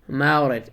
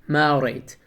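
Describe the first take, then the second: No difference in how they are said.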